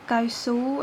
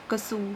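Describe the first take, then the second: First: The first syllable is said in full as kai. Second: The first syllable is reduced to ka. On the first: This follows the written spelling. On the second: This is how it is said in everyday speech.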